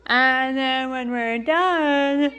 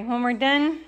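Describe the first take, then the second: First: Broken up by hiccups; slow, interrupted by a hiccup. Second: Said in the usual way. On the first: Real, not acted. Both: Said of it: "excuse me, sorry".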